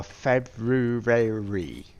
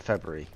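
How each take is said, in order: First: Slow Plymouth "February" stretched to "Feb-roo-ray-ree". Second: Quick "February" with the middle squeezed into "Feb-ruh-ree"; his own February. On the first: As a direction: drag out "February" in a broad Plymouth accent. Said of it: "where I come from, Plymouth". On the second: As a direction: say "February" fast and clipped to three syllables. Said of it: "I say it in, I suppose, two or three different ways". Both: Shown as a demonstration.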